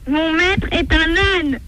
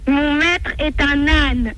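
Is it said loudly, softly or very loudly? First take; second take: very loudly; loudly. First: It is said at its loudest. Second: It is said louder than before.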